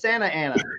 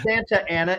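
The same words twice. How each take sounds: First: The T in Santa is dropped. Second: The T in Santa is clearly pronounced. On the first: The speaker calls it right. "we don't say T's either" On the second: The speaker calls it wrong. "It's not"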